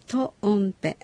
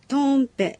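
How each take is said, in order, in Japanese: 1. 最初の音節のあとに少し区切れがあります。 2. 区切れなしで続けて言います。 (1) "トとオを切って発音するような気持ちで" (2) "トンペのように発音しないよう気をつけてください"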